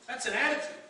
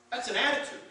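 Both takes have the same delivery.

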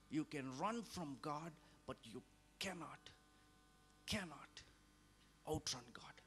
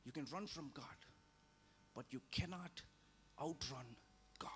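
First: Hushed whispered refrain. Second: Said in the usual way. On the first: Real, not acted. Preacher repeating the warning to the flock, fading to a whisper.

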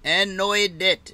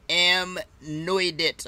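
First: Anoidit said as one smooth name; announced pronunciation. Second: Amnoidit sounded out very slowly; tentative pronunciation. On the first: Shown as a demonstration. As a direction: say "Anoidit" without halting, as announced. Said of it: "is how they pronounce it". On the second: Real, not acted. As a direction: feel out "Amnoidit" unsurely, drawn out. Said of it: "I'll wait for them to pronounce it".

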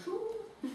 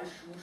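First: Schuh hooted much higher and softer, falling; owl hoot. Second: Said in the usual way. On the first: A narrator's reading. Owl calls before flying home, high hoot. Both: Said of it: "machte sie zweimal Schuh".

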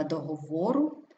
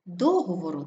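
First: ДогоВОру, stressed on ВО; stress on third syllable. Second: ДОговору, first syllable stressed. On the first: Teacher showing double stress, stress on ВО. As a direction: hit ВО in договору. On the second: Teacher showing double stress, stress on ДО. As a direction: hit ДО in договору. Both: Shown as a demonstration. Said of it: "слова із подвійним наголосом".

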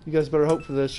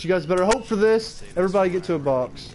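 First: Said in the usual way. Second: Louder and higher, hyped. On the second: Shown as a demonstration. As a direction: pump the crowd up. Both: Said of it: "repeated louder".

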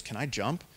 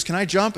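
First: Said in the usual way. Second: "Can I jump?" called higher and louder from up high; calling out. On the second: Retold or imitated. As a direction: yell the question down to the parents below. Girl shouts question to parents.

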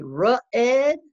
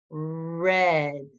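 First: "ruh-ed" with an extra uh after R; wrong R sound. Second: Said in the usual way. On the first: Shown as a demonstration. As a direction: split "ruh-ed" into two slow beats. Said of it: "Do we say ... No". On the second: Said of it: "We say".

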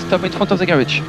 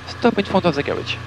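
The two takes are said the same way.

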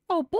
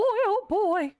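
First: Said in the usual way. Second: Put-on high squeaky nervous oh boy.

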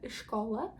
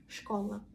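First: ШКОЛА with a short initial vowel before SH; slow full form. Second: ШКОЛА starting straight on SH; swallowed first vowel. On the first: Teacher shows slow speech, ШКОЛА with its first vowel. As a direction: say ШКОЛА carefully as i-shko-la. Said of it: "вповільно буде школа". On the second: Teacher shows common usage, ШКОЛА starting on SH. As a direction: drop any vowel before SH in ШКОЛА. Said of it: "в більшості кажуть школа". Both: Shown as a demonstration.

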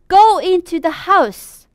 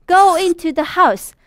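No difference in how they are said.

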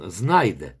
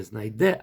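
First: «знайде» stressed on the first syllable, ZNAI-de; «знайде» with the first syllable full and stressed. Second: «знайде» with the first syllable reduced and the stress moved to DE; «знайде» stressed at the end with a rising tune; wrong stress on last syllable. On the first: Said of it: "там наголос". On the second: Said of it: "Не". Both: Shown as a demonstration.

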